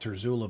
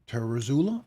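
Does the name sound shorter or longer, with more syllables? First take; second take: shorter; longer. First: The name is said with fewer syllables. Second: The name is said with more syllables. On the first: This is how the speaker habitually says it. The speaker calls it wrong. "I always pronounce it Bob Terzula" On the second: This is the apparently correct form. The speaker calls it right. "apparently it's Ter, Terzula or something like that. I guess it's more syllables"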